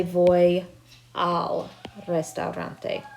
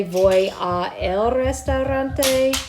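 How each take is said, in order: First: "al" run together as one slow word; contracted correct form. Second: "a el" said as two separate words; uncontracted wrong form. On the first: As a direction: say "al" as a single syllable. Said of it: "We're gonna say". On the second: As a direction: keep "a" and "el" apart. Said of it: "So we would never actually say". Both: Shown as a demonstration.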